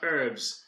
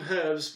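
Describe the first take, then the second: First: The word starts with a silent h. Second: The word starts with an audible h.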